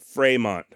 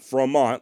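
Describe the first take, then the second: First: The name is said French-style, first vowel like 'ay'. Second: The name is said with an English-style vowel. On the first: The speaker calls it right. "the vowel should be pronounced as an A" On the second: The speaker calls it wrong. "and not Fremont like I've been saying"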